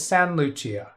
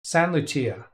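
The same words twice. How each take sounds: First: The T at the end of Saint is dropped. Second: The T at the end of Saint is dropped.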